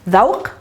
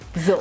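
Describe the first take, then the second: First: It begins with a 'th' sound. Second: It begins with a 'z' sound. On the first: This is the standard form. "we don't pronounce the of ذوق as the" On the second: This is the spoken dialect form. "we pronounce it as za, and the qa becomes a"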